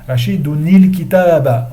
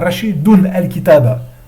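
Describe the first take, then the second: First: The nun takes an 'i' vowel before 'l'. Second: The nun is kept, then a separate 'al' follows. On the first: The speaker calls it right. "Il faut dire Rashidouni" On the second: The speaker calls it wrong. "il faut pas dire"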